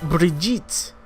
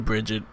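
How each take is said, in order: First: The name is said with a foreign accent. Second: The name is said with an English sound.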